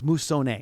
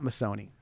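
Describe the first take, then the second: First: The name is pronounced with Italian sounds. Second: The name is pronounced with American English sounds. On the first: The speaker calls it right. "if you go to Italy, it's" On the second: The speaker calls it wrong. "it's not"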